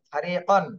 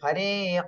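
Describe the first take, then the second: First: The word ends with an n sound. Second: The word ends with a lengthened a vowel. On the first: The reading continues without stopping. "উচ্চারণটা এইভাবে ছিল" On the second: The reader stops at this word. "এক আলিফ টান দিতে হবে"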